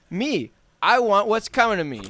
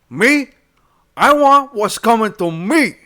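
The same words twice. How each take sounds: First: It is read in his plain own voice. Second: It is read in a Tony Montana voice.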